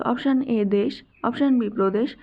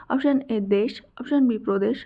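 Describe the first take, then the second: Both takes have the same delivery.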